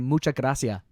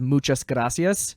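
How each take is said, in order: First: The final s sounds are dropped. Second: The final s sounds are clearly pronounced. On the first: "they just get rid of the s at the end" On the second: "with the s at the end"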